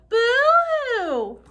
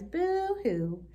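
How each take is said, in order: First: It is said loudest of all. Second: It is said softly and quietly.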